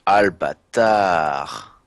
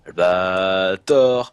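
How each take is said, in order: First: Albatar said slowly with an a in the last syllable; drawn-out Albatar ending in -tar; mispronounced. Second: Albator said slowly with an o in the last syllable; drawn-out Albator ending in -tor; corrected. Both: Shown as a demonstration.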